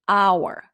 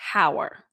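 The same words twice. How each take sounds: First: The word begins with a vowel sound. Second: The word begins with an h sound. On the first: The speaker calls it right. "it produces a vowel sound" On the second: The speaker calls it wrong. "not hour"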